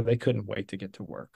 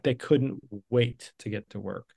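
First: Said in the usual way. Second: "wait" drawn out, set apart; stress on WAIT. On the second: Real, not acted. Founder imagining eager workers, "wait" stretched for emphasis.

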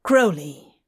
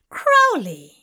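First: Said in the usual way. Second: Louder, higher delighted cry of the name; light up at the name; delighted exclamation. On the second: A narrator's reading. Tracy delighted to meet Crowley, louder and higher.

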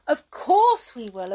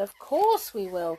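First: Loud eager promise; eager cry. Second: Eager echo. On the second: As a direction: echo it a little less loudly. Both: Acted. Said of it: "cried the brownies".

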